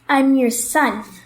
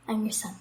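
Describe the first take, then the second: First: It is said loudly. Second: It is said quietly.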